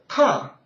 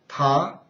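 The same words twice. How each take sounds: First: It is said with the fourth tone. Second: It is said with the second tone.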